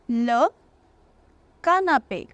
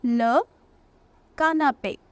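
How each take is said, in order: Both takes have the same delivery.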